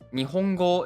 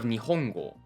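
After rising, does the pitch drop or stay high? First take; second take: stays high; drops. First: The pitch starts low, rises and stays high. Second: The pitch rises and then drops again. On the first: The speaker calls it right. "the first kana must start low and everything goes high and stays high" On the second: The speaker calls it wrong. "instead of"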